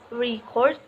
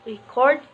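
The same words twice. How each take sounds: First: The stress is on the first syllable. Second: The stress is on the second syllable. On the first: It is used as a noun. "The first syllable in a two-syllable noun is emphasized" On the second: It is used as a verb. "The emphasis of each two-syllable verb is on the second syllable"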